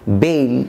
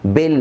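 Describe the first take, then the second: First: "বেল" as long "beil"; corrected "বেল". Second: "বেল" as short "bel"; wrong "বেল". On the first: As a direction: glide from e to i in "বেল". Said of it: "উচ্চারণ হবে এইল". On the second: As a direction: say "বেল" with a plain e, no glide. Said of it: "বেল না". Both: Shown as a demonstration.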